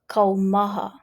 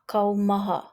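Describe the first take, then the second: No difference in how they are said.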